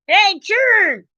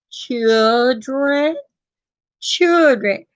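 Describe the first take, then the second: First: High, drawn-out country call; country holler. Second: Put-on "Children" carefully sounded out in two syllables; over-enunciate "children" like a lesson; proper pronunciation. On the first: Acted. Country woman calling the children in, country holler. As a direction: holler for the kids country-style. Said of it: "They know you got country in here". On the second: Husband teaching wife to say "children", overly proper. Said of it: "Say it with me".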